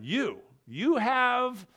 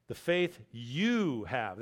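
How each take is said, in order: First: "You, you have" with the first YOU punched high and louder, slow; stress on YOU. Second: Slow, lower, leaning on the word you in "the faith you have"; emphatic you. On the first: Preacher driving home that YOU have faith, high loud slow stress on you. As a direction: hammer home the repeated "you" slowly. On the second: Preacher stressing the emphatic pronoun to the congregation, slow low emphasis on you. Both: Shown as a demonstration. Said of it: "that's an emphatic pronoun".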